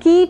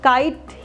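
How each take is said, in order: First: The vowel is said as a long 'ee'. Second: The vowel is said like the letter name 'eye'. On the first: The speaker calls it wrong. "Keet नहीं बोल रहे हैं" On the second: The speaker calls it right. "Kite में I की sound I ही है"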